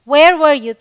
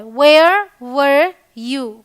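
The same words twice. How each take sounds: First: Said in the usual way. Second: Drawn out word by word, very slow; slow teaching demo. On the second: Shown as a demonstration. Teacher showing learners how to ask where were you, very slow. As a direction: lay each word down slowly for students to repeat. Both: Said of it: "तो simple है".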